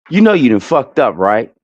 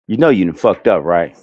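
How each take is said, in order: First: It is said in his normal voice. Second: It is said in a put-on man voice.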